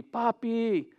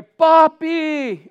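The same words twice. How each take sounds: First: Higher-pitched but restrained call; child's cry retold. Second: High, loud, drawn-out call to Dad; child's cry for help. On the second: Retold or imitated. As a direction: cry out like a child falling into water. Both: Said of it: "he cried out to me".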